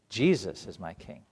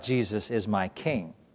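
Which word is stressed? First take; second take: Jesus; king. First: The stress falls on the word Jesus. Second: The stress falls on the word king. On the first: Jesus defines what a king really is. The speaker calls it right. "It's that Jesus is my king" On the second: Worldly kingship defines who Jesus is. The speaker calls it wrong. "it's not that Jesus is my king"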